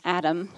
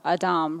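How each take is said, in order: First: Said in the usual way. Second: Adam said the Hebrew way, ah-DAHM; Hebrew pronunciation. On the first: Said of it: "or Adam, really". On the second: Shown as a demonstration. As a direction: stress the second syllable of Adam, with a long "ah". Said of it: "the word here is Adam".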